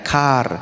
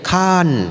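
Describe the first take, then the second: First: It is said the Indonesian way, with an R. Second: It is said the Thai way, ending in N.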